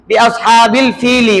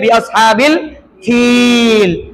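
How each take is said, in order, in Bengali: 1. শেষ শব্দটি একটি যুক্ত স্বরধ্বনি দিয়ে শেষ হয়। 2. শেষ শব্দটি একটি খালি ব্যঞ্জনধ্বনিতে শেষ হয়।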